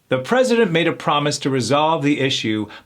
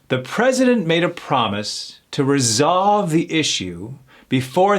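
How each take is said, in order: First: The Z sounds are softer and more relaxed. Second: The Z sounds are strongly buzzed and exaggerated. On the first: "a little more natural, thrown back" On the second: "we're overemphasizing those Z's"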